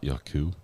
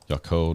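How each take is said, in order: First: The name ends in an 'oo' vowel instead. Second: The name ends in an 'oh' vowel, like taco. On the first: The speaker calls it wrong. "not Yaku" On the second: The speaker calls it right. "Taco with a J, but sounds like a Y. Yako, not Yaku"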